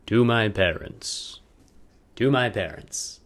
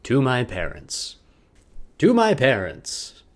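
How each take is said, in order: Both takes have the same delivery.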